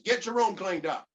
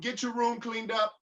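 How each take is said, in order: First: The tone is harsh and irritated. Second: The tone is friendly and polite. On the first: The request has been ignored before. "My tone changes" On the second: This is the first gentle request. "I'm real cordial. I got a good attitude"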